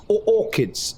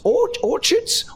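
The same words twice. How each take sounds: First: "orchids" said with a k, high and questioning; alternative pronunciation. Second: "orchards" said with a ch, high and questioning; doubting pronunciation. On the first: Game master doubts the word, "orchids" with a k as a high question. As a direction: test "orchids" with a hard k, pitched up. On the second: Game master checks the word aloud, "orchards" with a ch as a high question. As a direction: slowly test "orchards" with its ch, pitched up. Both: Real, not acted. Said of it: "I've just heard it out loud".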